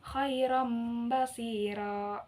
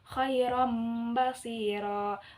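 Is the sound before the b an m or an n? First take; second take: m; m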